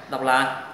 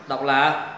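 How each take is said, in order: Both takes have the same delivery.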